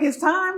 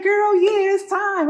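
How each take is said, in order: First: High echo question, rising at the end; retold disbelief, voice lifting into a question; startled question. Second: High, loud, certain exclamation; retold cousin's emphatic confirmation, pitched up. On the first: Mother-to-be hearing that labour has started, startled question. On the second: Cousin telling a first-time mom the contractions mean labour, emphatic.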